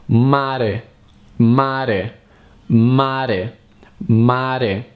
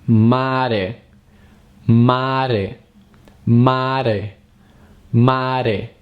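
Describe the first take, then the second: Both takes have the same delivery.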